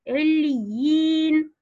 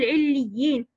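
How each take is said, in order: First: The long vowel is held for two full beats. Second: The long vowel after the doubled ya is clipped. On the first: The speaker calls it right. "لا بد أن نمكن مد الياء حين الوصل مد طبيعي حركتين" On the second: The speaker calls it wrong. "لا أقول عليين"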